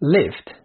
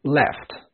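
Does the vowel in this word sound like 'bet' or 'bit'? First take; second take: bit; bet. First: The vowel is a close i sound. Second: The vowel is an open e sound. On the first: "لو كسرتها بقى وقلت لك left left" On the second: "قلنا left مش مكسور قوي"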